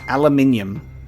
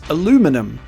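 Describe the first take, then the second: First: It is said the Australian way, with five syllables. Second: It is said the American way, with four syllables. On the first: "we in in Australia, it's pronounced aluminium" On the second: "in places like America, it's pronounced aluminum"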